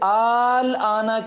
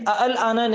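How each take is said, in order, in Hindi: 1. इसकी शुरुआत एक खिंचे हुए लंबे स्वर से होती है। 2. इसकी शुरुआत दो अलग छोटे स्वर-अक्षरों से होती है। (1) "आल आना कहना वाजिब है" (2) "अ अल आना नहीं कहेंगे"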